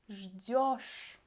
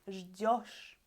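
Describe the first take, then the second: First: The stressed ending has a clear 'yo' vowel. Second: The same.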